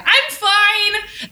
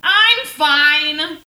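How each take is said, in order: First: Insistent I'm fine. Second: Louder, forced I'm fine; insistent I'm fine. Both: Retold or imitated. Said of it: "that is also how the episode starts".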